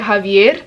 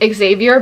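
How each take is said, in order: First: The name is said with a Spanish pronunciation. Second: The name is said with an English pronunciation. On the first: This suits the character's Colombian background. "because he is Colombian, I've been pronouncing it" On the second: This is how most people say the name. "everybody is saying"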